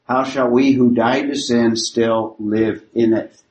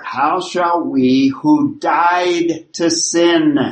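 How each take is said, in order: First: Said in the usual way. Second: Slow, weighty delivery of "How shall we who died to sin?", every word spaced out; slow emphatic reading. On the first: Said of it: "what he's basically getting at". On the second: Shown as a demonstration. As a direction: read the verse slowly, letting each word land. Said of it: "he starts with an answer here".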